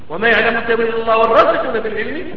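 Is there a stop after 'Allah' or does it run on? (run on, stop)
run on. The recitation runs on without stopping after Allah. Those firm in knowledge also know its interpretation. "هذا وقف الوصف بالوصل"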